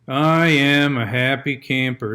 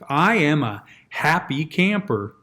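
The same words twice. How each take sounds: First: It is mumbled with the mouth barely moving. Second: It is said with a wide-open, resonant mouth.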